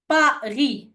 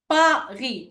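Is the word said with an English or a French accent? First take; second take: French; French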